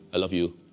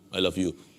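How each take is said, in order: No difference in how they are said.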